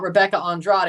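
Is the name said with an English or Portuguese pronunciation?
English. The name is said with an English pronunciation. The speaker calls it wrong. "it's not Rebecca Andrade"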